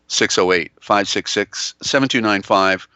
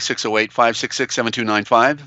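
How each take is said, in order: First: The number is said slowly. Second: The number is said fast.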